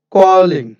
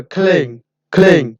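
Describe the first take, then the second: First: "কলিং" in two syllables, ko-ling; learner's "কলিং"; common local mispronunciation. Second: "ক্লেইং" as one syllable, khleng; careful model of "ক্লেইং"; correct pronunciation. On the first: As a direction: put a vowel between k and l in "কলিং". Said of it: "আমরা বলি". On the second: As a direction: run aspirated k straight into l in "ক্লেইং". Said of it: "এটা হবে". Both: Shown as a demonstration.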